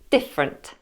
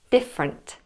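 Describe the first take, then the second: First: The unstressed middle vowel is dropped entirely. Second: The unstressed middle vowel is dropped entirely.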